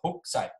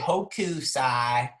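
First: The middle 'u' vowel is nearly silent. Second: The middle 'u' vowel is clearly pronounced. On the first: This is how it sounded in a documentary. The speaker calls it right. "They barely had any ooh at all" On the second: This is how the speaker used to say it. The speaker calls it wrong. "I used to say Hokusai"

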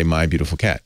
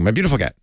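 First: The words are spoken as separate words. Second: The words run together as one long word. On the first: Each word in the hashtag starts with a capital. The speaker calls it right. "would say" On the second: The hashtag is written without capital letters. The speaker calls it wrong. "instead of saying"

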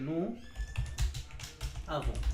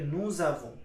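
First: The two words are said with no z link. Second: A z sound links the two words together. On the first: "নু এবং আভন দুইটা কিন্তু আলাদা আলাদা শব্দ" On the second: "এসটা আবার জ উচ্চারণ হয়ে যাবে"

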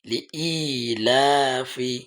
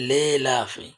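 First: It starts with 'li' and has a glottal catch. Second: It starts with 'le' and has no glottal catch. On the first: The speaker calls it right. "আপনি প্রথমে একটার উচ্চারণ করেন লি, তারপরে ই" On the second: The speaker calls it wrong. "অনেকে বলে লে লাফি, লে লে বললে লাম ইয়াজের হয়ে যায়, হামজার উচ্চারণটা আসে না।"

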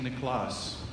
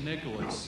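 First: The stress is on the second syllable. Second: The stress is on the first syllable.

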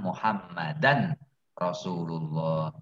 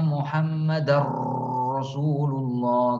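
First: The n is pronounced clearly before the r. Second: The n merges into the following r sound. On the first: The speaker calls it right. "Biasa saja" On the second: The speaker calls it wrong. "Tidak Muhammadar seperti itu"

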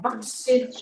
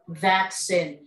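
First: The word is said with Vietnamese pronunciation. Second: The word is said with English pronunciation. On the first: "cái từ được gọi là vaccine là trong tiếng Việt mình" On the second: "trong tiếng Anh thì người ta sẽ có một cái từ chuẩn như thế này"

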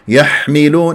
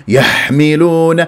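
First: The ḥā is pushed out with a harsh rush of air. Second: The same.

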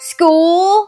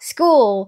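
First: The oo vowel is drawn out, Manchester-style. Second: The oo vowel is shorter, in a standard accent. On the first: "แมนเชสเตอร์ออกเสียงว่า, school, สระอูนี่ยาวแน่นิดนึง" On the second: "คำว่าโรงเรียนที่เราออกเสียงว่า"

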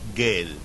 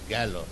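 First: The word ends in an 'e' sound. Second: The word ends in an 'o' sound. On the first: The speaker calls it wrong. "But he said" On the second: The speaker calls it right. "So the pronunciation is gallo"

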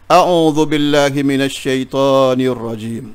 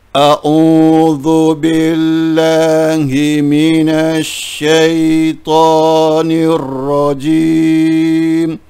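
First: It is recited at a somewhat faster pace. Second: It is recited at a slower, ordinary pace.

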